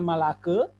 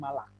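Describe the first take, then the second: First: It ends with an extra vowel sound. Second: It ends on a bare k consonant. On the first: The speaker calls it wrong. "bukan malake" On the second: The speaker calls it right. "tapi malak"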